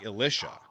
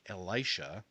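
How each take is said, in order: First: The name is said not sounding like Elijah. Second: The name is said to sound like Elijah. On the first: This is how the speaker grew up saying it. "I always grew up saying Elisha" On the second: This is how some people say it now. "try and make it sound like Elijah now"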